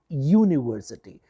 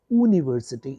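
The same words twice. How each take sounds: First: The word begins with a 'y' consonant sound. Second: The word begins with a plain vowel sound. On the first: The speaker calls it right. "it is university. Since the sound ya or u is a consonant" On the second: The speaker calls it wrong. "It is not university"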